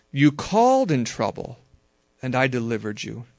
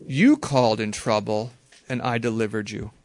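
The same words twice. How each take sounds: First: "called" lifted and pressed; stress on CALLED. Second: "You" leaned on, rest of "You called in trouble" lighter; stress on YOU. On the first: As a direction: punch the word "called". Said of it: "This is what I mean by emphasizing various words". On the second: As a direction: hit the word "You" at the start. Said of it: "So now I'm gonna read it again". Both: Shown as a demonstration.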